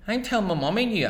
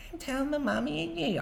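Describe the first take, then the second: First: Put-on fast, higher and louder childish threat; tattling boy. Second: Much higher squeaky parody of a tattletale; mocking mimic. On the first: Boy threatening to tell his mother, fast high whine. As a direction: whine it like a kid telling on you. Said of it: "I say". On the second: Older brother mimicking the tattling boy, squeaky mockery. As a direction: mimic the little brother to mock him. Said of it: "our Paddy mimics me".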